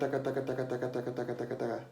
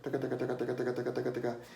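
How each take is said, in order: First: The syllables are said quickly. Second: The syllables are said even more quickly. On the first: "get to where you can say it fast first" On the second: "or faster"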